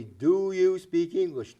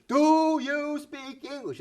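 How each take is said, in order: First: Loud, slow, over-enunciated question; mock the tourist shouting at locals. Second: Much higher and louder, dragged slowly; hammed-up yell, as if volume makes it clear; louder shouting tourist. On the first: Tourist shouting at a local who doesn't understand, slow and loud. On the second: Tourist repeating the question louder to a local, mock shouting. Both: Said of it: "if they say it louder".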